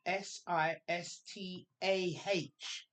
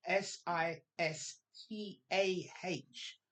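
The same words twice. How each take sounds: First: S I S T A H spelled letter by letter, slowly. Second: S I S T A H spelled letter by letter again, slowly. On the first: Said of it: "the sister is spelled". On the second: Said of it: "Secret and Sister". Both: Shown as a demonstration.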